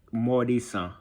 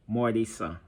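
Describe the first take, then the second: No difference in how they are said.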